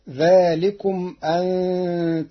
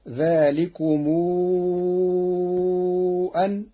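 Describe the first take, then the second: First: The final m is closed with no vowel. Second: The m takes a long vowel held six counts.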